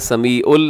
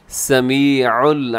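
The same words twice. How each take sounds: First: The 'ain' sound is weak or missing. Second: The 'ain' sound is clearly articulated. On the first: The speaker calls it wrong. "समीउल नहीं" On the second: The speaker calls it right. "यहाँ पे आइन का खास ख्याल रखिएगा"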